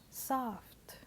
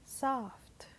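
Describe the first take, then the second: The two takes are said the same way.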